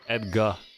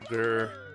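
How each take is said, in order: First: The last syllable has an open 'ar' vowel. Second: The last syllable has an 'er' vowel. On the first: "in Trinidad English, we would just say Edgar" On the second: "But American English, it's Gur"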